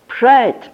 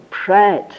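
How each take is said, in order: First: Pride said again, higher and louder; emphatic Pride. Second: Said in the usual way. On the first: Shown as a demonstration. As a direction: punch the repeated word Pride.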